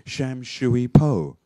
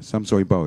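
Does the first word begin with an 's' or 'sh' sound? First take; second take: sh; s. First: The first word begins with an 'sh' sound. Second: The first word begins with an 's' sound. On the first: The speaker calls it wrong. "I've said for so many years... But actually, it shouldn't be" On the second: The speaker calls it right. "It should be Sam Shui Po"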